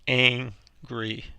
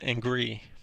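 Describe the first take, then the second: First: The stress is on the first syllable. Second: The stress is on the second syllable. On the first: The speaker calls it right. "the stress is on the first syllable" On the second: The speaker calls it wrong. "not angry"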